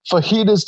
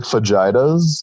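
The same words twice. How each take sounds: First: "fajitas" said fah-HEE-tuhs; correct pronunciation. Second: "fajitas" said fuh-JAI-tuhs; misread as spelt. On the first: Explaining a misreading to the co-host, "fajitas" as fah-HEE-tuhs. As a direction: say "fajitas" with an H sound for the j. Contrasts real word with misreading. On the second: Showing the co-host a misreading, "fajitas" as fuh-JAI-tuhs. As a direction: say "fajitas" with a hard English j, rhyming with vaginas. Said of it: "to me looks like fajitas". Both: Shown as a demonstration.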